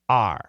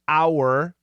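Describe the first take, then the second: First: The word is reduced to a short 'r' sound. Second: The word is said in its full form. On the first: "but daily pronunciation, R" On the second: "Perfect pronunciation is our"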